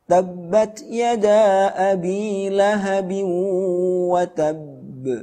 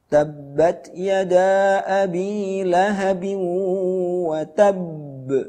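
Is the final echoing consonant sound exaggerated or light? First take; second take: light; exaggerated. First: The final echoing consonant is released lightly. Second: The final echoing consonant is pressed too hard. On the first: The speaker calls it right. "Sekali lagi yang tepat" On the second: The speaker calls it wrong. "Contohnya yang tidak tepat"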